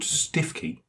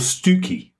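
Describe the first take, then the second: First: The first syllable sounds like 'stiff'. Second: The first syllable sounds like 'stew'. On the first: This follows the spelling. "So sounds are spelt" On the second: This is the local pronunciation. "I have heard the local pronunciation is Stookey"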